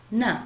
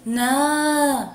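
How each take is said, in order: First: Short "ن" with a quick "a"; short vowel. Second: "نا" held long as "naaa"; long vowel. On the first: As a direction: cut "ن" short as a brief "na". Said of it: "صوت قصير". ("ن" بصوت قصير مفتوح) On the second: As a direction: stretch out the "a" in "نا". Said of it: "صوت طويل". ("نا" بصوت طويل ممدود) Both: Shown as a demonstration.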